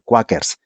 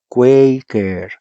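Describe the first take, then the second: First: The first vowel sounds like Spanish 'a'. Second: The first vowel sounds like English 'ay'. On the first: The speaker calls it wrong. "nunca se pronuncia en español Quakers" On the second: The speaker calls it right. "la A es E ... Así se pronuncia"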